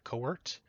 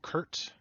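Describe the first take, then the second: First: The name is said with two syllables. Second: The name is said with one syllable.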